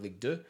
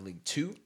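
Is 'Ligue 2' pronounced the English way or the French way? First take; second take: French; English. First: It is said with a French pronunciation. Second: It is said with an English pronunciation.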